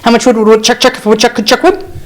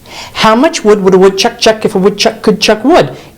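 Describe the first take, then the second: First: It is said much faster than normal. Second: It is said at a normal, unhurried pace.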